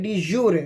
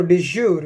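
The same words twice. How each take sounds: First: "de jure" said dee-JOO-ray; three-syllable pronunciation. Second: "de jure" said dee-ZHOOR; two-syllable "de jure", no final vowel; alternative pronunciation. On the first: Lecturer names the recognition type to students, three-syllable "de jure". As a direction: end "de jure" on an audible "ray". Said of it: "उसका pronunciation क्या है". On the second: Lecturer gives students the other way some say it, "de jure" as dee-ZHOOR. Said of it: "या कुछ लोग इसको de jure भी कहते हैं". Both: Shown as a demonstration.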